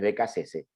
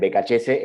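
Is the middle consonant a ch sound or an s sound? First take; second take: s sound; ch sound. First: The middle consonant is an s sound. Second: The middle consonant is a ch sound. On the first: The speaker calls it right. "es Becasese" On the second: The speaker calls it wrong. "Algunos me dicen Becachese, está mal dicho"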